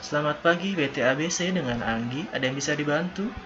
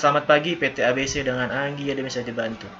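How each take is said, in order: First: The pitch moves with lively phrasing and pauses. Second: The pitch stays flat and monotone throughout. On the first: It sounds like a receptionist or call center agent. The speaker calls it right. "pasti intonasinya hampir sama" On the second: It does not sound like a receptionist. The speaker calls it wrong. "jangan sampai kalian flat. Misalnya"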